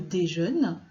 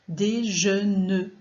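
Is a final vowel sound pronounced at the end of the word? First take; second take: no; yes. First: The final e is silent. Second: The final e is pronounced as a syllable.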